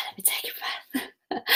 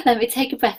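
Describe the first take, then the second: First: Sighed out in a near whisper; breathy exhale. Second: Said in the usual way. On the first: Real, not acted. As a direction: let the words out on a long, soft exhale. Pausing to catch breath.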